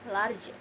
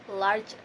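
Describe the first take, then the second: The two takes are said the same way.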